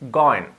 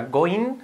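First: "going" with a relaxed, E-like second vowel; I almost E. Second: "going" with a full Spanish "-een" ending; Spanish-style ending on "going"; wrong I in going. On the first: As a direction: soften the I of "going" towards E, falling. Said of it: "la I, siempre casi una E". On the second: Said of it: "cuidado que no sea going". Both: Shown as a demonstration.

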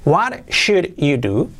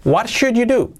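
First: "What should you do?" slow, each word apart; slow word-by-word model. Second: Said in the usual way. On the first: Shown as a demonstration. Teacher models the new question for learners, slow and separated. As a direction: space the words out for learners.

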